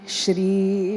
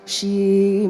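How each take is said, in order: First: The r sound is clearly pronounced in shri. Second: The r sound is dropped, sounding like she. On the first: The speaker calls it right. "but Shri" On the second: The speaker calls it wrong. "it is she that you're hearing"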